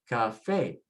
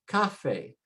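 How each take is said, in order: First: The stress is on the last syllable. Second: The stress is on the first syllable. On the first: The speaker calls it right. "we say cafe" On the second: The speaker calls it wrong. "so the stress should be next to the last. We should say cafe"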